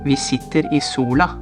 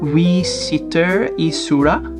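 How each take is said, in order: First: The sentence is pronounced in a native-like way. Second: The sentence is pronounced in a distorted way. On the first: The speaker calls it right. "which is correct" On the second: The speaker calls it wrong. "now I'm gonna try to say it wrong"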